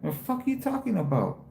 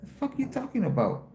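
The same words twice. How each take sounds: First: Raised, scornful what-are-you-talking-about; incredulous retort. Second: Much higher, more scornful repeat; sharper incredulous retort. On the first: To the lady asking if he was special ed, scornful. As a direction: snap back at the lady, pitch up. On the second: Showing the stream how he told the lady off, scornful. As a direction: throw it back at her with pitch climbing. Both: Retold or imitated. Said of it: "I told her like that".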